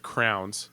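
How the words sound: It is said as one syllable, like crowns. This is how it is said where the speaker grew up.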